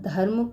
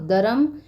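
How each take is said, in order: First: The first consonant is said with aspiration. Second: The first consonant is said without aspiration.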